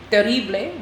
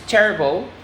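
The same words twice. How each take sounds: First: "terrible" in Spanish, teh-RREE-bleh; Spanish pronunciation. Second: Said in the usual way. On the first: Shown as a demonstration. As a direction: say "terrible" as Spanish, stressing the middle "rri". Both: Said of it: "often identical in Spanish and English".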